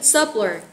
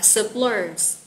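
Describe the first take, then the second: First: The stress is on the first syllable. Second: The stress is on the second syllable. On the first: The speaker calls it right. "nhắn âm 1 chứ" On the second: The speaker calls it wrong. "Mình sẽ nhấn trọng âm số 2"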